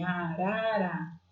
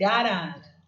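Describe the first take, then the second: First: "Arara" drawn out slowly, syllable by syllable; syllable counting. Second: Said in the usual way. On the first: Shown as a demonstration. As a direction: stretch each syllable of "Arara" to count them, softer. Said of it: "quantas sílabas tem".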